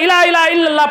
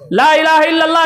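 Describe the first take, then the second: First: The phrase begins with the sounds 'ila ila'. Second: The phrase begins with the sounds 'la ilaha'. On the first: The speaker calls it wrong. "सही कलमा नहीं पढ़ता है" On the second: The speaker calls it right. "के बजाय"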